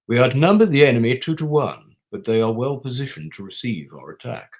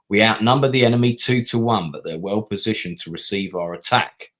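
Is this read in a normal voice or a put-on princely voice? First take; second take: princely; normal. First: It is read in a put-on princely voice. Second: It is read in the speaker's normal voice.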